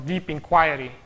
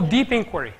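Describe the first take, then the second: First: Inquiry is pronounced in the British way. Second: Inquiry is pronounced in a non-British way.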